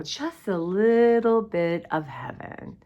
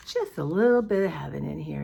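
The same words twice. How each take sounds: First: Slow, drawn out Just a little bit of heaven; little stretched out in Just a little bit of heaven; savoring slowly. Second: Said in the usual way. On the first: Shown as a demonstration.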